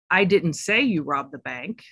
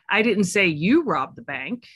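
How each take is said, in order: First: The stress is on the word say. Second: The stress is on the word you.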